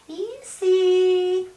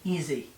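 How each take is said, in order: First: It sounds sweet and patronizing. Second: It sounds like a firm, low growl.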